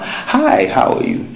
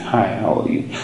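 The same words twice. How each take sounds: First: The greeting sounds bright, lively and excited. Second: The greeting sounds flat, low and unexcited. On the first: The person is happy and in a good mood. "come with a big smile" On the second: The person is not in a very good mood. "If the person is not so excited"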